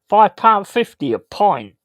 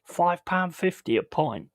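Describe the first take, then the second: First: "Five pound fifty a pint" repeated higher and louder in disbelief; louder and higher, exasperated at the price; incredulous emphasis. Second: Said in the usual way. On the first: Real, not acted. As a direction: hammer "Five" in outrage. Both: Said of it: "How mad is that".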